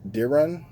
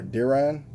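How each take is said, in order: First: Diran ending in an unstressed "ruhn"; Diran, rhyming loosely with "siren" at the end; first name pronunciation. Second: Diran ending in an open "rahn"; Diran, second syllable like "Ron"; alternative name pronunciation. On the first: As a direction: say Diran with a weak, swallowed second vowel. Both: Shown as a demonstration. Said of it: "I think his name is".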